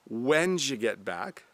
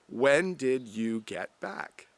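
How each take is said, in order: First: It is said fast and reduced. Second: It is said slowly and fully.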